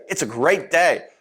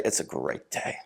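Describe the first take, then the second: First: Said in the usual way. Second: Hushed whisper, almost no voice; soft breathy whisper of the same line. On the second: Shown as a demonstration. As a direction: whisper it as if sharing a secret. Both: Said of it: "I said two very different things".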